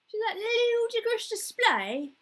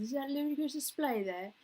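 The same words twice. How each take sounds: First: High, loud, drawn-out mock yell; football fan yelling. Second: Raised-pitch mock fan patter; football fan's complaint, milder than a yell. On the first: Imitating football fans yelling at the TV, exaggerated loud shout. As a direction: bellow it at the match on TV. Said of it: "yelling and, at the T V". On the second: Sitcom character parroting football talk, put-on fan voice. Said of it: "what's the other thing he says".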